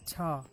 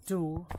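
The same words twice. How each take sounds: First: "ta," with a short unstressed schwa; reduced "ta,". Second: "do," with a full, stressed oo; full vowel in "do,". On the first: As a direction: weaken "ta," to a short uh vowel. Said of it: "That is why we pronounce it as". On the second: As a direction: give "do," its long oo sound. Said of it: "we are not pronouncing it as". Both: Shown as a demonstration.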